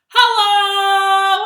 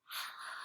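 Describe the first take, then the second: First: It is said very loudly. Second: It is said very quietly.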